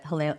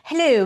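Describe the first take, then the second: First: It is said in her ordinary accent. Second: It is said in a put-on British accent.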